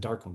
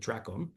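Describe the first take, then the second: First: The word begins with the sounds 'dar'. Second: The word begins with the sounds 'dra'. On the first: The speaker calls it wrong. "I said darkon" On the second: The speaker calls it right. "but it's really a dracon"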